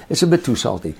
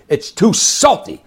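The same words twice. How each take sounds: First: Said in the usual way. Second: High, loud, slow mock yell; yelling at the chef. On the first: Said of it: "he said". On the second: Restaurant owner yelling at his chef over salty fish, mock yell. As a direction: bark it at the chef, higher and slower. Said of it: "he's yelling at the chef".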